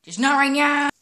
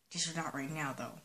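First: Loud. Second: Murmured low and soft; quiet. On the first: Link snaps it aloud at himself. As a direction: burst out louder and higher, punching right. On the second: Link mutters it to himself, soft. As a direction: say it under your breath. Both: Acted. Same words said twice.

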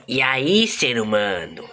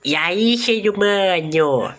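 First: Low, slow alien greeting; deep drawn-out alien voice; alien voice demo. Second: High, slow attempt at an alien voice; a kid straining to copy the alien, pitched up; high drawn-out mock alien; kid trying alien voice. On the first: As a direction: drop the voice down and drag it out like an alien. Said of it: "É assim, ó". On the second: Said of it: "vou tentar". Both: Shown as a demonstration.

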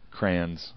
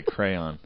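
First: "crayons" squeezed into one syllable, crans; own "crayons". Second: "crayon" in two syllables, cray-on. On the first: Co-host admits a personal quirk, "crayons" said as one-syllable crans. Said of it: "I can't say crayon". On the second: Co-host names the word they can't say, two-syllable "crayon". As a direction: say "crayon" fully as cray-on, slowly. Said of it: "I always say crayons". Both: Shown as a demonstration.

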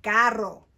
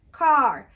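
First: Carro said in Spanish with a tapped r, low; Carro in slow Spanish for learners. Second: Car in English, louder, for contrast; Car said in English next to Carro. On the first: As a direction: model Carro for children to repeat. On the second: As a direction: say Car clearly as the English word. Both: Shown as a demonstration. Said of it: "how we say car in Spanish".

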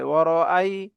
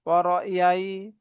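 First: "ওয়ারআই" with a clean break before ai; correct hamza. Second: Slow "ওয়ারআই" said as waro-yai; mistaken y sound. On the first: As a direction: say "ওয়ারআই" as waro-ai, no y glide. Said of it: "উচ্চারণটা হবে". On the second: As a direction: glide through a y into ai in "ওয়ারআই". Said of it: "ইয়ার উচ্চারণ করে ফেলে". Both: Shown as a demonstration.

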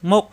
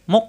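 First: "মুক" caught short in the throat; "মুক" with a hard unreleased stop; stopped, no bounce. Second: "মুক" with an echoing vowel released after it; "মুক" released with qalqala instead of stopped; bouncing qalqala. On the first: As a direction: say "মুক" with the end shut off, no echo. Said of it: "আটকে যাবে". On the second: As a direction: bounce the end of "মুক" like muk-o. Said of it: "বাড়ি খেলে কলকলা হয়ে যাবে". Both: Shown as a demonstration.

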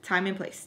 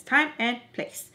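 First: Said in the usual way. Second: Slow, spaced-out "time and place"; emphatic repeat. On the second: Real, not acted. Telling viewers there is a time and place, emphatic. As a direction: say "time and place" slowly, each word weighted.

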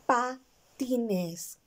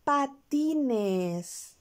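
First: Said in the usual way. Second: Patines drawn out slow, every syllable clear; word said for children. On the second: Shown as a demonstration. Teacher presenting the next word, drawn out slowly. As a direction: stretch out patines for the class. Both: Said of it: "La próxima palabra que tengo es".

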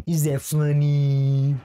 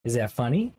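First: Long drawn-out, louder final "funny"; hammed-up question. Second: Said in the usual way. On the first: YouTuber asking viewers about his banter, hammed-up and drawn out. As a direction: stretch funny into a big sustained note.

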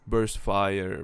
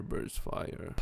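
First: Said in the usual way. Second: "burst fire" whispered softly. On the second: Real, not acted. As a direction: whisper it to yourself.

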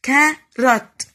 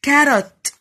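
First: "carrot" broken as CA - RROT with a gap; teacher sounding out "carrot" in two loud beats; split into two syllables. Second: Said in the usual way. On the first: Shown as a demonstration. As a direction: chop "carrot" in the middle, both halves loud. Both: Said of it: "بقطع الكلمة في النص".

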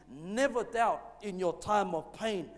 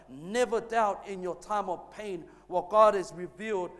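First: Slow, deliberate, leaning hard on Never; slow emphatic statement. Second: Louder unison repeat. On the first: Pastor gives the congregation a line to repeat, slow and emphatic. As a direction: lay out the line slowly so the church can repeat it. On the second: Congregation says the line back with the pastor, louder. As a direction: lead the church in saying it back, stronger. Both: Shown as a demonstration. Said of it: "Let's say that together".

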